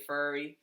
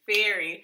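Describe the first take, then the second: First: "furry" for ferry, with an er as in fur; her accented "furry". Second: "ferry" with an open eh as in fair; careful "ferry". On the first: Girlfriend shows how she says ferry, accented "furry". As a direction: say "furry" with a Massachusetts vowel. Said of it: "Massachusetts accent". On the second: Girlfriend corrects her own word, careful "ferry". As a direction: say "ferry" clearly, louder, vowel as in berry. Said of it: "I say furry". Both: Shown as a demonstration.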